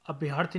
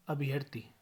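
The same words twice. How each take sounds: First: अभ्यर्थी with long yaa; mispronunciation. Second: Said in the usual way. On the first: Shown as a demonstration. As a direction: say abh-YAAR-thi for अभ्यर्थी. (अभ्यर्थी, लंबा या) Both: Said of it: "नहीं".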